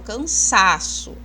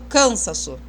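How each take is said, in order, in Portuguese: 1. A tônica está na sílaba do meio. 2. A tônica não está na sílaba do meio. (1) "eu falo cansaço" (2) "Eu nunca falo cansaço"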